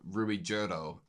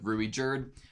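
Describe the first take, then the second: First: The name is said with Japanese-style syllables. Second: The name is said with English-style syllables.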